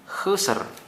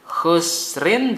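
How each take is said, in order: First: The word ends on a bare consonant. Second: The word ends with a vowel and n. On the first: The reader stops at this point. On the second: The reading continues without a stop.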